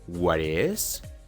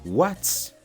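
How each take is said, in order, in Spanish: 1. La palabra 'is' se dice como una sílaba completa. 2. La palabra 'is' se reduce a una s final. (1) "En vez de decir" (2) "mejor di"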